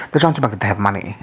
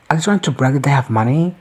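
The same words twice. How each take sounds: First: "They're trying to brag that they have money" said quickly as a lower-pitched statement; matter-of-fact answer. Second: "Are they trying to brag that they have money" lifted into a rising question. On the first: Real, not acted. Answering own question, "They're trying to brag that they have money" as a quick statement. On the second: Retold or imitated. Reacting to bougie boasts, "Are they trying to brag that they have money" asked with a rise. Acted question, then answered herself.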